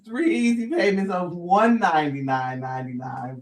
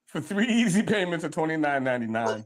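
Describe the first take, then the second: First: Corrected price in low infomercial voice; home shopping host. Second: Smooth low sales pitch price; home shopping host. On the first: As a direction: announce the better price, salesy. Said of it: "First of all". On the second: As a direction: read the price like an infomercial. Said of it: "First of all, it's three easy". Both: Pretend.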